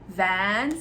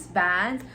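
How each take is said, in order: The two takes are said the same way.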